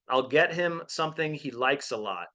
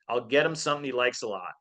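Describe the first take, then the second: First: Each word is said separately and clearly. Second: The words are slurred and run together.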